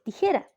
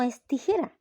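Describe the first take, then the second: First: The word starts directly with 'ti'. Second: The word starts with an extra 'es' sound. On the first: The speaker calls it right. "aprendiera a decir bien la palabra, que es tijera" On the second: The speaker calls it wrong. "No es tijera"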